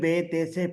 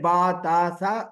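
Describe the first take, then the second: First: Each letter name ends in an 'e' vowel. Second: Each letter name ends in a long 'a' vowel. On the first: This is the Urdu way of reading the letters. "Urdu में" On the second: This is the Arabic way of reading the letters. "अरबी में"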